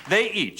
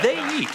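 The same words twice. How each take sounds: First: Said in the usual way. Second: High insistent they eat; a high squeak of insistence; high emphatic they eat. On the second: Shown as a demonstration. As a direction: pitch it way up, insisting.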